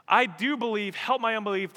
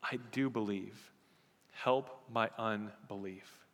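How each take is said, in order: First: High, loud pleading cry of the verse; the same verse now prayed at full force; fervent prayer. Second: Quiet plea. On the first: Shown as a demonstration. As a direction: cry it out to God, higher and louder. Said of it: "how often I pray that prayer". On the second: Retold or imitated. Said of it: "the man says".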